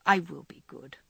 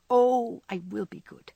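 First: Lightly voiced penitent child; mock-penitent, a hint of a child; penitent child imitation. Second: Penitent child imitation. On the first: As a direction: drolly mimic a sorry child. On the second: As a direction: drolly plead like a sorry child. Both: A narrator's reading. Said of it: "droll imitation of a penitent child".

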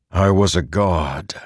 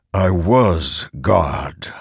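First: Said in the usual way. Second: Very slow, weighty words; slow realisation. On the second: A narrator's reading. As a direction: let each word land slowly. Dawning realisation, repeated.

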